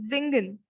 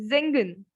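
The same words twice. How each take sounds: The two takes are said the same way.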